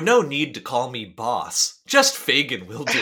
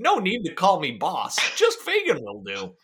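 First: It is read in his normal voice. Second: It is read in a silly put-on voice.

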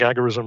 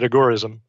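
First: The stress is on the first syllable. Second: The stress is on the second syllable. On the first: "I just think agorism rolls off the tongue better" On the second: "he preferred accent on the gore"

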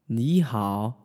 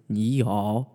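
First: The first syllable rises instead of dipping. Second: Both syllables dip down in a low tone. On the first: "it might be a little bit confusing to hear me say ni hao if you just learned that ni is a third tone" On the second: "having to go down and down again for ni hao"

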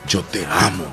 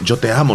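First: It sounds heartfelt, said from deep inside. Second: It sounds shallow, said only from the lips.

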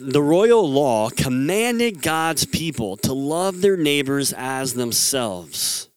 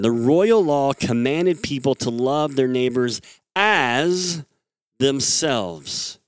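First: The word 'as' gets no special stress. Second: The word 'as' is strongly stressed.

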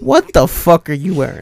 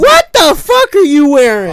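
First: It is said with less enthusiasm. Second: It is said with more enthusiasm.

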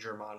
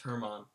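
First: The name begins without an H sound. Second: The name begins with an H sound. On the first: The speaker calls it wrong. "you keep saying Germán" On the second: The speaker calls it right. "when it's Herman"

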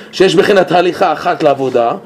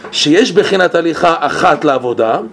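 Both takes have the same delivery.

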